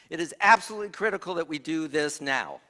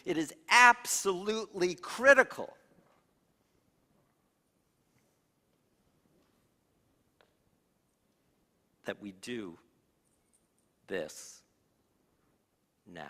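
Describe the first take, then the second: First: The sentence runs on without a pause. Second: There is a pause after 'critical'.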